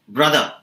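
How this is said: The final r sound is dropped. This is how Australians say it. "becomes brother"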